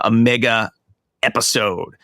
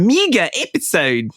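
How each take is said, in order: First: It is said in the speaker's ordinary accent. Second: It is said in a New Zealand accent.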